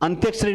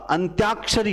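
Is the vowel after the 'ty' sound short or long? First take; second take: short; long. First: The vowel after 'ty' is short. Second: The vowel after 'ty' is a long 'aa'. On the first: The speaker calls it wrong. "अंत्यक्षरी नहीं होता" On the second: The speaker calls it right. "अंत्याक्षरी होता है"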